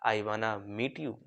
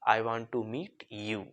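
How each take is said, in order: First: Want to is reduced to wanna. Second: Want to is said in full.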